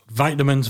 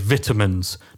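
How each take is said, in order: First: It is said with an American pronunciation. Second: It is said with a British pronunciation. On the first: "our transatlantic way of pronouncing words" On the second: "or for people in the UK"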